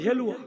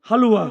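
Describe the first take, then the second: First: The first vowel is an 'e' sound. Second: The first vowel is an open 'a' sound. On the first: This is how the speaker's own community says it. "আমরা কিন্তু বলি হেলুয়া" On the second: This is what others call it. "হালুয়া না কি বলে গো"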